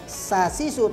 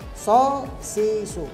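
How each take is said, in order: First: The s sound is thin, like the letter sin. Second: The s sound is heavy, like the letter sad. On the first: The speaker calls it wrong. "bukan sa sisu" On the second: The speaker calls it right. "tapi so sisu"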